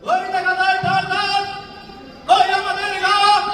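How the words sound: It is delivered in a political rally style. "রাজনৈতিক দলের নেতারা যেভাবে বলে একটু বলেন।"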